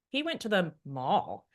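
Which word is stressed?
mall. The word mall is stressed. It highlights the place he went. "when we emphasize the mall"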